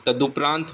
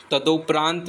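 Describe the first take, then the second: First: तदुपरांत said as "tadupraant"; correct u vowel. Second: तदुपरांत said as "tadopraant"; wrong o vowel. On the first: Teacher giving the correction, तदुपरांत said with "du". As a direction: say u after the d in तदुपरांत. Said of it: "ऊ की मात्रा आती है". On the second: Teacher naming the mistake, तदुपरांत said with "do". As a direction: say o after the d in तदुपरांत. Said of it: "ओ की नहीं". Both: Shown as a demonstration.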